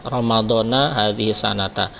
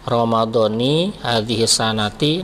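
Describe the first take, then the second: First: The words end with an a vowel. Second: The words end with an i vowel. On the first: The phrase is a separate time expression. "kalau mau dibaca Ramadana boleh" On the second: The words form a possessive construction. "nah itu namanya mudhaf dan mudhaf ilaih"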